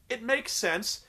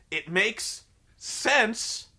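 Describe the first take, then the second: First: Said in the usual way. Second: MAKES and SENSE stretched out slowly; very slow, pausing before a stretched "sense"; drawn-out emphasis. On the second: Real, not acted. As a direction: spell it out slowly, leaning on "sense". Repeats verdict, drawn out for emphasis.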